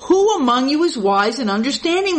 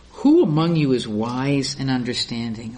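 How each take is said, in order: First: Lifted, pressing scripture reading; emphatic reading. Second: The verse read much lower and understated; low, understated Bible reading; low scripture reading. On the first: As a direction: repeat the verse with more push. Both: Shown as a demonstration.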